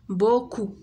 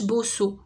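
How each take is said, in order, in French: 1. La consonne du milieu est un son K. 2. La consonne du milieu est un son S. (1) "داكوغ حيت عندنا او" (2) "ما قريناهاش بوسو"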